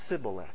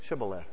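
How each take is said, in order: First: The word begins with an s sound. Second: The word begins with an sh sound. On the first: The speaker calls it wrong. "the Ephraimites can't pronounce that H" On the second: The speaker calls it right. "say Shibboleth"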